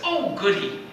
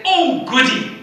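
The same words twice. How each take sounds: First: British inflection. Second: Much higher, lightly British "Oh, goody."; a light hint of a delighted British aristocrat; posh delight. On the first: Retold or imitated. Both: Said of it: "speaks English with somewhat of a British inflection".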